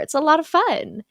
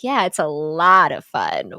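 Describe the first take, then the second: First: The stress is spread evenly, no word stands out. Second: The word lot is stressed.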